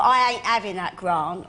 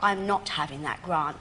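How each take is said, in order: First: Broad Cockney "I ain't having that grant"; script's Cockney line. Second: Lower, careful "I'm not having that grant" with full "not"; elocution-proper version. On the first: Quoting her EastEnders script line, broad Cockney "ain't". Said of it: "when I get the script, though, and I see". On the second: Changing her script line into mum's proper London, careful "I'm not". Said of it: "I put". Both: Retold or imitated.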